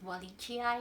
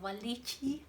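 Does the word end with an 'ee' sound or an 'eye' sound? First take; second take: eye; ee. First: The final vowel sounds like 'eye'. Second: The final vowel sounds like 'ee'. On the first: The speaker calls it wrong. "not Walichi. No, not, not like that" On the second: The speaker calls it right. "you're supposed to pronounce it as E"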